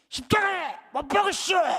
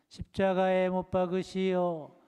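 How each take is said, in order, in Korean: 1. 크게 소리치며, 강하게 말합니다. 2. 약하게, 힘을 거의 주지 않고 말합니다. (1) "아주 세게 연습해요" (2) "그래가지고 누가 십자가에 못 박히겠어요?"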